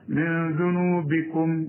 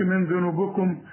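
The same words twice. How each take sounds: First: The b is followed by a clear i. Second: The b is not followed by a clear i. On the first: The speaker calls it right. "وخد بالك الباء هنا مكسورة" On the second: The speaker calls it wrong. "ما تقولش من ذنوبكم"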